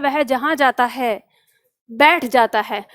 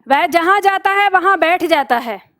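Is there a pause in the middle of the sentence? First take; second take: yes; no. First: There is a pause after जाता है. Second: It is said without a pause in the middle.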